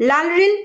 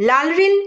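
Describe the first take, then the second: No difference in how they are said.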